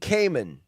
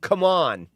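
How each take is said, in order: First: The name sounds like the word Cayman. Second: The name sounds like the words come on. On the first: The speaker calls it wrong. "I pronounced it wrong" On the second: The speaker calls it right. "It's pronounced Kamir and come on"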